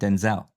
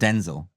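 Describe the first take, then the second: First: The stress is on the second syllable. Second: The stress is on the first syllable. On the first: The speaker calls it right. "you have to really accentuate the second syllable" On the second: The speaker calls it wrong. "I'm not Denzel"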